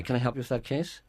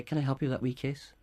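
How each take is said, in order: First: Threatening. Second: A touch softer and kinder offer of help; tender helpful offer; warmer, softer. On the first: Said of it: "It sounds threatening". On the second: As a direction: gently offer to help with the "wee case". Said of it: "it's better, it's warmer, softer". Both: Shown as a demonstration.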